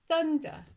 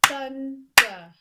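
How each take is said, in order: First: Said in the usual way. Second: "Thunder" as two slow, loud beats, thun, der; clapped-out syllables. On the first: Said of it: "clap syllables in this word". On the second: Shown as a demonstration. Teacher clapping syllables, "Thunder" beat by beat. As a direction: split "Thunder" after the n, punching both parts. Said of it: "I'm going to clap syllables".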